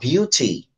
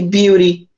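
First: It is said with a British accent. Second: It is said with an American accent.

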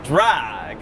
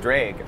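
First: The vowel is standard, without the Wisconsin sound. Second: The vowel has a Wisconsin-accent sound. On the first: The speaker calls it right. "Like drag" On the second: The speaker calls it wrong. "You want to say drag"

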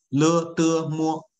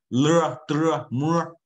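First: The final vowel is crisp and flat. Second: The final vowel glides like in English. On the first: The speaker calls it right. "这个发音是正确的" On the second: The speaker calls it wrong. "你不能发成了的么，no，不是这个音啊"

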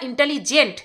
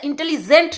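First: The g is said like a j sound. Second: The g is said like a z sound. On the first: The speaker calls it right. "ওটা ইন্টেলিজেন্ট" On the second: The speaker calls it wrong. "ওটা ইন্টেলিজেন্ট না"

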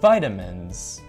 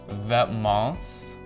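First: The name is said like English 'vitamins'. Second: The name is said in its French form.

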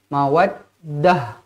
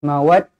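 First: The word ends with a short h sound. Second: The word ends with a t sound. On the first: The speaker calls it right. "kena jadikan dia huruf ha yang bertanda mati" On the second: The speaker calls it wrong. "Jangan berhenti mawaddat"

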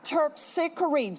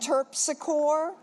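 First: It is said the classical Greek way. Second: It is said the local New Orleans street way. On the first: This is the original name of the muse. The speaker calls it right. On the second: This is how the locals say the street name. The speaker calls it wrong.

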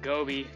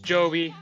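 First: The name begins with a hard G sound. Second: The name begins with a J sound. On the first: The speaker calls it wrong. "I don't know why I was saying G" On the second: The speaker calls it right. "It's a J"

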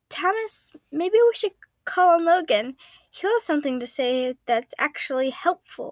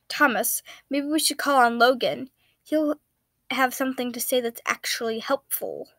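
First: It is said in Patton's voice. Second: It is said in Virgil's voice.

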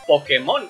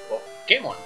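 First: The stress is on the last syllable. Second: The stress is on the middle syllable. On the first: This is how it is said in Latin America. "como lo decimos nosotros es con acento en la O" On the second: This is how it is said in Spain. "como lo dicen normalmente en España es con acento en la E"

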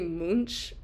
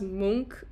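First: The name is said just as it is spelled. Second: The name is said the native, non-English way. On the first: The speaker calls it wrong. "I say Munch because if not, I couldn't spell it correctly" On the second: The speaker calls it right. "I think it's pronounced Munch"

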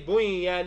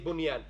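First: The noon sound merges into the next sound. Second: The noon sound is pronounced clearly and separately. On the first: The speaker calls it wrong. "You do not say bunyan" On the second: The speaker calls it right. "you say bunyan"

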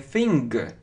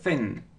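First: The word ends with an audible hard g sound. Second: The word ends without any hard g sound. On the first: The speaker calls it wrong. "здесь вот не читается на конце, то есть не thing" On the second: The speaker calls it right. "г мы не произносим, просто thin"

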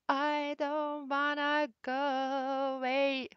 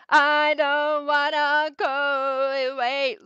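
First: It is said calmly with moderate energy. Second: It is said strongly with passion and energy. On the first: "you record one more time, you're like, okay" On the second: "you record like very strong, you record more passion"

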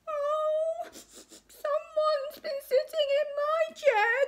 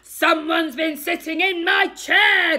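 First: It is cried in Baby Bear's voice. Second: It is growled in Daddy Bear's voice.

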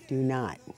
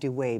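First: The surname ends with a 'not' sound. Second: The surname ends with a 'way' sound. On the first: This is the pronunciation used on the show. "I said it right" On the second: This is the pronunciation the host prefers. "I like Do Way better"

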